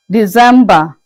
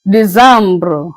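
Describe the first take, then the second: First: Said in the usual way. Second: December said the French way, "dee-ZAM-bro"; French pronunciation. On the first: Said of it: "December is being pronounced as". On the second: Shown as a demonstration. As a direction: turn December into French décembre, ending in -bro. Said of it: "is being pronounced as December".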